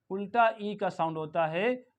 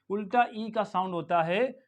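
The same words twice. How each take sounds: The two takes are said the same way.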